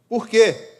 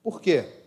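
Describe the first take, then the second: First: High, loud shout of the question; loud rising cry to the church; loud rhetorical question. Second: Said in the usual way. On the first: Shown as a demonstration. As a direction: call it out to the crowd, much louder. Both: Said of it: "repeated louder".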